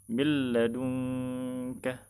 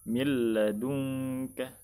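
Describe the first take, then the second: Both takes have the same delivery.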